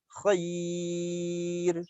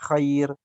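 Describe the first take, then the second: First: The long sound is held for too long. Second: The long sound is held for a short count. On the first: The speaker calls it wrong. "Tapi kalau terlalu panjang" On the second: The speaker calls it right. "Itu nggak masalah. Masih dua"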